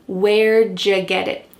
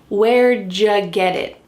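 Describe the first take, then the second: The two takes are said the same way.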